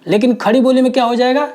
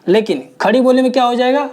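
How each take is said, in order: Both takes have the same delivery.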